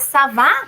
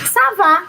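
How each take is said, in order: First: It is said with a questioning intonation. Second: It is said with an answering intonation. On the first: The speaker is asking how someone is. "entonação de pergunta" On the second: The speaker is saying they are fine. "entonação de resposta"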